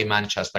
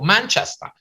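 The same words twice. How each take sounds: First: Said in the usual way. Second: Manchester in a put-on English accent, rising high; echoing English accent. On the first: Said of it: "If they say Manchester". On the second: Repeating an English guest's town in an English accent. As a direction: parrot the town name back like a local Englishman. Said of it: "If they say Manchester, I go".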